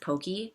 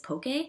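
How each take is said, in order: First: The word ends with an 'ee' vowel sound. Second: The word ends with an 'ay' vowel sound. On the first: "I pronounce it pokey" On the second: "the E sound is pronounced A"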